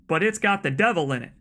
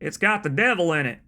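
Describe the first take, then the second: First: It is read in his normal accent. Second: It is read in an exaggerated Southern accent.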